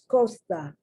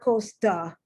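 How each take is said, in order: First: The T is soft, with the tongue behind the teeth. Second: The T is strong, with a forceful release. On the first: The speaker calls it right. "So it's costa" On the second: The speaker calls it wrong. "It's not costa"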